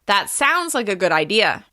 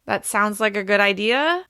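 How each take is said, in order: First: It is said in a confident, settled tone. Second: It is said in a tentative, unsure tone.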